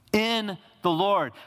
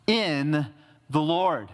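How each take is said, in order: First: In the Lord repeated higher and slow, leaning on In; preacher's slow emphatic echo of "In the Lord"; stress on In. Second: Said in the usual way. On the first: Shown as a demonstration. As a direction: say "In the Lord" slowly, hitting In high.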